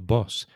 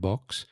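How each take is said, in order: First: The word ends with a plain s sound. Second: The word ends with a ks sound. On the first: The speaker calls it right. "no, it's your boss" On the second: The speaker calls it wrong. "they had a more of an X sound"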